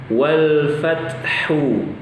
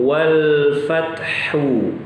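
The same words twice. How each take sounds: The two takes are said the same way.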